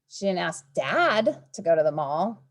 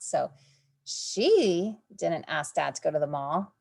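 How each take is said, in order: First: The word dad is stressed. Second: The word she is stressed. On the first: She asked a different person. "Maybe she asked mom" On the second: Someone else was the one who asked. "Maybe somebody else asked"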